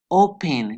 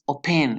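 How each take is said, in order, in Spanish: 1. El acento está en la primera sílaba. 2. El acento está en la segunda sílaba. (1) "la sílaba tónica es open" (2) "no es open"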